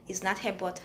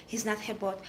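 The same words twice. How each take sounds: The two takes are said the same way.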